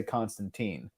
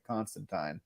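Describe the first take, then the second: First: "Constantine" ending to rhyme with seen; American-style "Constantine", last syllable like teen; US pronunciation. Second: "Constantine" ending to rhyme with mine; British-style "Constantine", last syllable like tine; UK pronunciation. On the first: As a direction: say "Constantine" as CON-stan-teen. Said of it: "whereas in the U S, we say". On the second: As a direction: say "Constantine" as CON-stan-tyne. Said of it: "most people in the U K pronounce it". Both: Shown as a demonstration.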